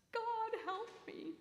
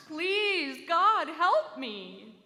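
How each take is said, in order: First: High, pleading cry to heaven; a desperate plea, high and thin. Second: Loud, slow, desperate wail; a loud pleading cry, drawn out slow; wailing louder. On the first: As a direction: call up to the heavens for help. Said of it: "he cried out to the heavens". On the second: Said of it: "he wailed again, louder". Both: A narrator's reading.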